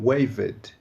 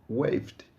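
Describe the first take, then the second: First: Waved said slowly as two syllables, way-ved; wrong waved. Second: Waved as one syllable, wayvd; right waved. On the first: Teacher showing learners the mistake, slow two-syllable waved. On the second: Teacher modelling the correct waved for learners, one syllable. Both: Shown as a demonstration. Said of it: "e não waved".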